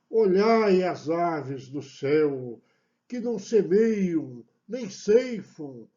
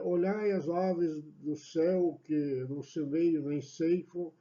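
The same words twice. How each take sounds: First: It is declaimed with dramatic, preacher-like intonation. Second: It is read plainly, without dramatic intonation. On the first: "se imagina você sendo um pregador e declamando esse, esse versículo" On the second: "só simplesmente ler o livrinho lá"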